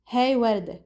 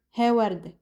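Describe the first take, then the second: First: "Hey وردة" as "hay wardeh"; regional short form. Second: "he وردة" as "heh wardeh"; no glide on "he", "وردة" ending in eh; regional short form. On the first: Teacher showing the first variant, gliding "hey". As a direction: glide on "Hey", then "وردة" ending in eh. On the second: Teacher showing the second variant, pure-vowel "he". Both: Shown as a demonstration. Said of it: "we say hey or".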